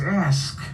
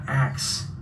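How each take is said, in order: First: The word ends with an s then k sound. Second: The word ends with a k then s sound. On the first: The speaker calls it right. "the correct way to say it is ask" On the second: The speaker calls it wrong. "not ax"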